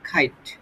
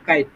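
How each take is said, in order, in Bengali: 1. প্রথম ব্যঞ্জনধ্বনিতে বাতাসের জোরালো ফুঁ আছে। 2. প্রথম ব্যঞ্জনধ্বনিতে বাতাসের কোনো ফুঁ নেই। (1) "ওটা ব্রিটিশ ইংলিশ হচ্ছে তোমার খাইট।" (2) "আমরা আগে কি করতাম? কাইট।"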